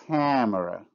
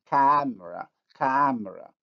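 First: Camera with a nasalized first vowel; with nasalization. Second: Camera with an oral, non-nasal vowel; without nasalization. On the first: Teacher contrasting camera with nasalization. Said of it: "With nasalization". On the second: Teacher contrasting camera without nasalization. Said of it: "If I pronounce the word without nasalization". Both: Shown as a demonstration.

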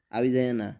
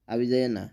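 No difference in how they are said.

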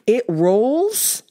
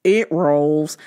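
First: Incredulous. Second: "It rolls" said low and flat, like a shrugging guy; deadpan it like you don't care; mock flat excuse. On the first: Real, not acted. Incredulous echo of excuse. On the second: Imitating the truck owner's lazy low "It rolls".

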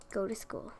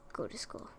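First: Said in the usual way. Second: Breathy whispered order. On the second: Real, not acted. Gamer whispering at her sims to go to school. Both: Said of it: "I'd like to see you guys all go to school".

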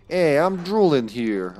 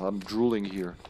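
First: Slow, hammed-up New York Italian accent. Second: Said in the usual way. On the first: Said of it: "I don't know why I went full, uh, New York Italian there".

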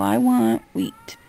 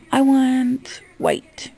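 First: Slow, drawn-out low demonstration; low, deliberate example of ordering; model order. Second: High and very drawn out, spelling it out; slow demonstration for dim customers; model order. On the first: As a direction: spell the order out slowly, dropping the pitch. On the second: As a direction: say each word slowly at raised pitch. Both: Shown as a demonstration. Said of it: "You need to come up to me and go".

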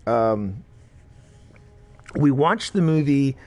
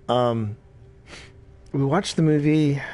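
Both takes have the same delivery.

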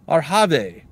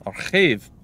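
First: "Arhave" said in three syllables, ar-HAH-vay; first pronunciation attempt. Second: "Arhave" said in two syllables, ar-KHAYV; second pronunciation attempt. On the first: Streamer guessing a baron's name, "Arhave" as ar-hah-vay. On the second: Streamer retrying a baron's name, "Arhave" as ar-khayv. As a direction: rasp the middle of "Arhave", ending in -ayv. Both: Shown as a demonstration. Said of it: "I don't know".

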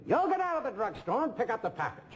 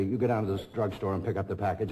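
First: Much higher, copied speech pattern; catching the actor's voice. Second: Said in the usual way. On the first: Retold or imitated. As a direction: slip into the other actor's high rhythm. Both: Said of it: "I'm trying to imitate them".

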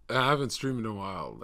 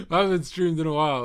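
First: Said in the usual way. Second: Giggly. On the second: Real, not acted. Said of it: "laughs then repeats".

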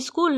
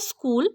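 First: School with an i put in front; wrong iskul pronunciation. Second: School begun directly on s; correct school pronunciation. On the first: Teacher modelling the mistake to correct, school as iskul. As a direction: start the word school on i, iskul. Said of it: "এটা স্কুল নয়". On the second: Teacher letting pupil hear the right school, without i. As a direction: say school cleanly, no leading i. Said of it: "সঠিক উচ্চারণটা তাকে শুনিয়ে দিতে হবে". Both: Shown as a demonstration.

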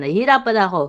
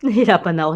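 First: Strained and louder, pushing the words out; struggling to talk. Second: Laughing. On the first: Host admitting to viewers she struggles, strained. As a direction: say it like talking is hard work. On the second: Host laughing at herself to viewers, laughing repeat. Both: Real, not acted.

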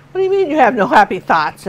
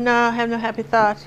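First: Mildly incredulous mother, retold; imitated mother. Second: Child's mopey Southern drawl, imitated. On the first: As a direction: question the child in mock disbelief. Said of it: "her mother's going". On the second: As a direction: answer as a little girl with a put-on Southern accent. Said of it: "picked up a Southern accent".

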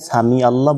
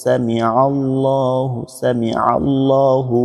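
First: সামি আল্লাহ said quickly without the ain; wrong way. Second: সামি আল্লাহু slowly with a pressed ain. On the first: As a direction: rush সামি আল্লাহ, no throat sound. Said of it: "আইনের উচ্চারণটা হচ্ছে না". (ভুল উচ্চারণ, আইন ছাড়া) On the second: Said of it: "চাপ দিয়ে বলতেন". (আইন চাপ দিয়ে ধীরে সামি আল্লাহু) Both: Shown as a demonstration.

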